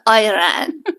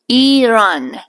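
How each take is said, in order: First: The word sounds like 'I ran'. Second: The word does not sound like 'I ran'. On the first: The speaker calls it wrong. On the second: The speaker calls it right.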